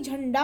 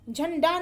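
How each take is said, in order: First: Said in the usual way. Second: झंडा with a dental-sounding n; wrong pronunciation. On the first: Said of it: "झंडा होता है". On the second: Shown as a demonstration. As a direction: keep the n of झंडा forward, not retroflex. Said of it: "झंडा नहीं".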